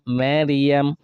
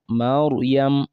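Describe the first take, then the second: First: The r sound is light and thin. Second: The r sound is heavy and full. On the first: The speaker calls it wrong. "That pronunciation of raw will be wrong" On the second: The speaker calls it right. "the raw will be heavy"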